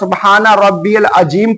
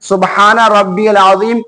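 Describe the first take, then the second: First: The last word has a j sound. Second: The last word has a z sound. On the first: The word comes to mean mute. The speaker calls it wrong. "बहुत सारे हमारे भाई क्या करते हैं" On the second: Pure is my Lord, the Magnificent. The speaker calls it right. "सुबहाना रब्बियल अज़ीम की जगह"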